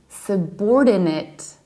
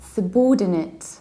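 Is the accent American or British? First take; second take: American; British. First: It is said in an American accent. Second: It is said in a British accent.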